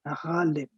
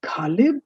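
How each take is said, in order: First: "Ghalib" with throaty gh, softer; guttural gh. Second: "Ghalib" with a hard stop, like kaa-lib; hard first consonant. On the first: Teacher showing the right way, guttural gh. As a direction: rasp the Gh of "Ghalib" at the back. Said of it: "See the guttural sound?". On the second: Teacher showing the wrong way, hard consonant. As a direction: say "Ghalib" without throat friction. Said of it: "It's not Ghalib". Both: Shown as a demonstration.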